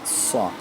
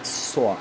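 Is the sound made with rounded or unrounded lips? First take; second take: rounded; rounded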